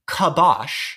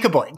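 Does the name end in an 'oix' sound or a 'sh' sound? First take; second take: sh; oix. First: The name ends with a 'sh' sound. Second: The name ends with an 'oix' sound. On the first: The speaker calls it right. "actually pronounced, which is Kabosh" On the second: The speaker calls it wrong. "It's definitely Kaboix"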